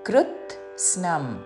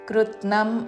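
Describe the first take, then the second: First: The t, s and n are all clearly heard. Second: The middle s sound is left out. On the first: The speaker calls it right. "తాకి సావత్తు నావత్తు మూడు చక్కగా వినపడాలి" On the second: The speaker calls it wrong. "కృత్నం అనకూడదు"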